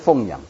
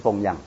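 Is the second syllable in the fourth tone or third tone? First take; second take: third tone; fourth tone. First: The second syllable is not in the fourth tone. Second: The second syllable is in the falling fourth tone. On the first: Raising something, as one raises pigs or dogs. The speaker calls it wrong. "不是奉养" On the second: Respectfully supporting one's parents. The speaker calls it right. "这个注意要读第四音"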